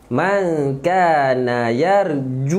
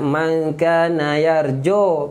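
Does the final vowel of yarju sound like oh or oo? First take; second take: oo; oh. First: The final vowel is a rounded 'u' sound. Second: The final vowel is an open 'o' sound. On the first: The speaker calls it right. "munculkan mulut untuk cantikkan sebutan" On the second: The speaker calls it wrong. "Ju, jangan jo"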